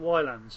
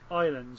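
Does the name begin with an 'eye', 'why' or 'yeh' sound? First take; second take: why; eye. First: The name begins with a 'why' sound. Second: The name begins with an 'eye' sound. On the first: This is the common way people say it. The speaker calls it wrong. "I've been pronouncing it Wylands" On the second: This is the way the makers intend it. The speaker calls it right. "apparently they want it to be pronounced... Islands"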